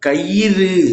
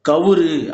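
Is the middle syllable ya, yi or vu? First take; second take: yi; vu. First: The middle syllable is yi. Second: The middle syllable is vu. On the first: The speaker calls it right. "கயிறு அப்படிங்கிறது தான் சரியானது" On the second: The speaker calls it wrong. "கவுரு என்பதும் தவறு"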